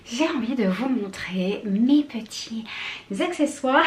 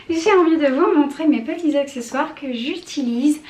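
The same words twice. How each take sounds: First: Breathless, half-whispered; winded, barely voiced words; out of breath. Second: Said in the usual way. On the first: Real, not acted. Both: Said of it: "je suis essoufflée".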